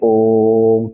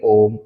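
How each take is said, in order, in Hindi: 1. ओ स्वर को तीन मात्रा जितनी देर तक बोला जाता है। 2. ओ स्वर को दो मात्रा जितनी देर तक बोला जाता है। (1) "तीन मात्रा के बराबर बोलेंगे यानी कि इससे भी ज्यादा" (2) "दो मात्रा के बराबर बोलेंगे"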